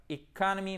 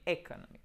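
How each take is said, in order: First: Wrong-way "economy", voice raised; mauvaise prononciation. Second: "economy" opening on a French é-like vowel; E accent aigu. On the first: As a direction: say "economy" the wrong way, pitched up, as a counterexample. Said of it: "c'est pas economy, mais economy". (« economy » mal prononcé, en contre-exemple) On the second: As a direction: start "economy" with a short i close to French é. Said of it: "plutôt comme un E accent aigu". (« economy » avec un I court proche du é) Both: Shown as a demonstration.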